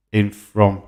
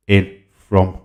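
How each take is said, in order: Both takes have the same delivery.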